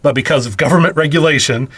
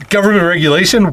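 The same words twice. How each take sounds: First: Said in the usual way. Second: Incredulous. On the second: Real, not acted. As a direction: throw the phrase back in disbelief. Repeats phrase in mocking disbelief.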